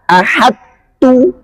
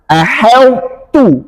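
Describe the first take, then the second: First: Ahadtu with a clear separate d before t, higher; wrong ahadtu. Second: Ahautu with the d merged into a heavy t; correct ahautu. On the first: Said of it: "Nggak boleh dibaca". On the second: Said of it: "harus dibaca". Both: Shown as a demonstration.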